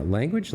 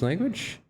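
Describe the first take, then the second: First: Said in the usual way. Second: Language? with a high questioning rise; puzzled question. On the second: Real, not acted. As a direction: ask language? as if unsure of it. Rereads it as a question.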